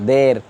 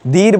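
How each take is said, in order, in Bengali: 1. এই স্বরধ্বনিটি দীর্ঘ 'ay' ধ্বনি। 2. এই স্বরধ্বনিটি দীর্ঘ 'ee' ধ্বনি। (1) "দের এ মাজহুল" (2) "দীর বললে মারুফ"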